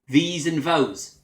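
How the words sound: The th sounds are replaced with f or v sounds. "they'll say"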